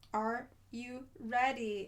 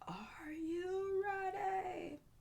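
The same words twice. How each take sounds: First: It is said in a normal voice. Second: It is said in a put-on voice.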